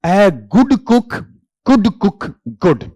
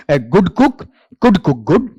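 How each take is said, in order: First: "A good cook could cook good" said very slowly, every word stretched apart; slow tongue twister. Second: "A good cook could cook good" rattled off quickly without a break; fast tongue twister. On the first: Teacher demonstrating the tongue twister to students, very slowly. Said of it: "tongue twister भी है". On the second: Teacher showing students the tongue twister said fast. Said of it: "इसे fast बोलेंगे". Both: Shown as a demonstration.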